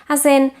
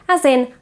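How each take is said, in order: The two takes are said the same way.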